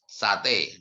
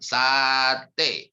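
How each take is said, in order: First: The word is said short and quick. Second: The word is drawn out long. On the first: "dibaca pendek" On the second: "dibaca panjang"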